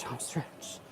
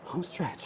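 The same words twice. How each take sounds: First: Whispered under the breath. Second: Said in the usual way. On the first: Real, not acted. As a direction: whisper it to yourself. Repeats phrase, whispered second time.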